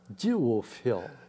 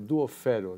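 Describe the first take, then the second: First: It is said with an English pronunciation. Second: It is said with a Japanese pronunciation. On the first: This is how people say it in England. "E na Inglaterra" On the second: This is how people say it in Japan. "No Japão ficou"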